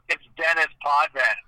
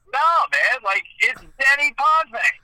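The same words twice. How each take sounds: First: Dennis Potvin said English, with the s and final n sounded; Americanized correction. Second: Higher, louder protest, Denny Potvin ending in French 'vay'; insistent French pronunciation. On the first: Ferraro correcting the announcer on the name, Americanized pronunciation. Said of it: "the name got Americanized". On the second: Announcer arguing back at Ferraro over the name, insistent French pronunciation. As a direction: argue back, Potvin as pot-VAY. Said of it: "I'm like". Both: Retold or imitated.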